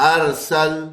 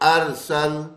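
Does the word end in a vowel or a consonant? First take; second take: consonant; consonant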